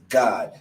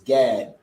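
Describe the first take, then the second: First: The name is said the Hebrew way. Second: The name is said the English way. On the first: "the Hebrew is God" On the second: "the English is Gad"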